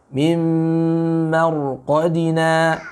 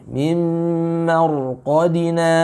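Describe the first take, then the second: No difference in how they are said.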